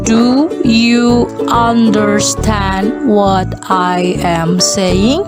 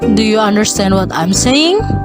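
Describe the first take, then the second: First: The question is said at a slower pace. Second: The question is said at a faster pace.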